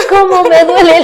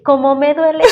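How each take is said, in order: First: Much higher, louder exaggerated childish whine; mother teasing her daughter with an over-the-top mock whine; hammed-up whine. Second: Higher, lightly mocking childish whine; mother teasing her daughter in a gentle mock whine. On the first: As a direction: ham up the complaint to make her laugh. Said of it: "le digo". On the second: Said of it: "Y después le digo".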